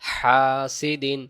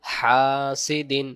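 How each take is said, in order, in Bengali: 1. প্রথম স্বরটি টেনে লম্বা পড়তে হবে। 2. প্রথম স্বরটি টেনে লম্বা পড়তে হবে।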